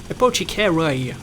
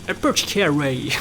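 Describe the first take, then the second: No difference in how they are said.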